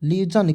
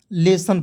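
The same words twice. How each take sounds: First: लेजन with j or z in the middle; wrong pronunciation. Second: लेसन with a clean s; correct pronunciation. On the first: Teacher asking why read it so, mimicking wrong pronunciation. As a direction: misread lesson as लेजन. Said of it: "लेजन क्यों पढ़ोगे". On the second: Teacher correcting the misreading, demonstrating correct pronunciation. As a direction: say लेसन as "le-san", unvoiced middle consonant. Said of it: "लेसन पढ़ते हैं". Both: Shown as a demonstration.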